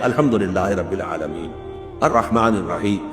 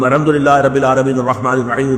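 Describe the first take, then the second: First: It is recited slowly with pauses between phrases. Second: It is recited quickly in one breath.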